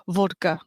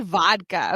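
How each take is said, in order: First: Vodka with a rounded Russian "o"; Russian accent. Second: Said in the usual way. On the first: Shown as a demonstration. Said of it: "I'm adding my Russian accent". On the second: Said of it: "I didn't say vodka".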